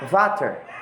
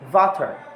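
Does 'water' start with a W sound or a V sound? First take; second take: V; V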